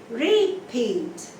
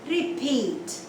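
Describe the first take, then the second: First: The stress is on the first syllable. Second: The stress is on the second syllable. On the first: The speaker calls it wrong. "We don't say repeat" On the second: The speaker calls it right. "the stress is on the second syllable"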